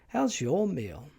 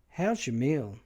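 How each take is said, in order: First: The stress falls on the word your. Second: The stress falls on the word meal.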